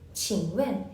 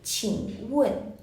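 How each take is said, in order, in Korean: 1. 둘째 음절은 영어 'when'처럼 들려요. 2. 둘째 음절은 중국어 'wen'처럼 들려요. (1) "많은 분들이 또 어떻게 발음하시냐면 when, when, 칭when 이렇게 발음을 하세요. 근데 사실 이 when은 영어식 발음이고" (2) "중국어 발음으로 얘기할 때는 우원, 우원이라고 발음해 주셔야 돼요"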